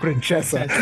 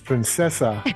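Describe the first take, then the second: First: The word is said with an Italian pronunciation. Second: The word is said with a Spanish pronunciation. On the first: The speaker calls it wrong. "your Italian is showing through ... not Princesa" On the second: The speaker calls it right. "It's Princesa"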